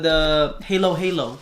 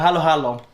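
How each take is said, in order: First: The name is said with an anglicized pronunciation. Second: The name is said with a Filipino pronunciation. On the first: The speaker calls it wrong. "Just kidding. Some people get mad for saying for me saying it like that" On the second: The speaker calls it right. "It's the halo halo"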